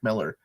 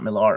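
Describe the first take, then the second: First: The surname is pronounced as Miller. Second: The surname is pronounced as Millar. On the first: This is how the man himself says it. The speaker calls it right. "people have told me it's just Mark Miller" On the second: This is how the speaker used to say it. The speaker calls it wrong. "It's not Millar. I always pronounced it Millar"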